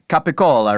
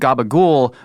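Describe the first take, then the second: First: It starts with a k sound and ends in a vowel. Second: It starts with a g sound and drops the last vowel. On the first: This is the standard form. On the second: This is the southern dialect form.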